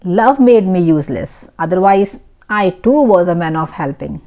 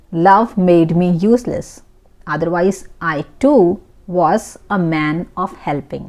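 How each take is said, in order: First: Said in the usual way. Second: A bit slower, words laid out clearly; unhurried teaching repeat. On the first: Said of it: "teacher models the sentence". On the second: Shown as a demonstration. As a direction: repeat it slowly so learners can follow. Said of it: "teacher repeats slowly for learners".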